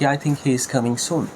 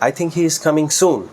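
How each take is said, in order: First: No word gets special stress. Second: The word soon gets the stress. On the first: A plain statement that he is coming soon. "খুব সাধারণভাবে" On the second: The quickness of the arrival matters most. "সুনের উপরে stress দেই"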